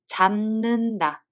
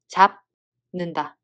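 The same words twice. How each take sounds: First: The first syllable ends in an m sound. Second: The first syllable ends in a b sound. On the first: The speaker calls it right. "we read them as" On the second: The speaker calls it wrong. "instead of"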